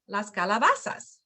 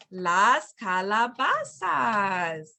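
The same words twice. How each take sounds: First: Said in the usual way. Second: Very slow, drawn-out "las calabazas"; slow teaching model. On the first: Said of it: "you can repeat". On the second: Shown as a demonstration. Teacher introducing the word of the week, slow and drawn out. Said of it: "you can repeat las".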